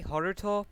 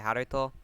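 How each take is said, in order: First: "Haruto" with a rounded first vowel and r; chosen pronunciation. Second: "Haruto" with open a and tapped middle; alternative pronunciation. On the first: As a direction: say "Haruto" as HOR-uh-toh. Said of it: "I'm gonna say Haruto". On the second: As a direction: say "Haruto" as HAD-uh-toh. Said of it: "every now and again I'll say Haruto". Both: Shown as a demonstration.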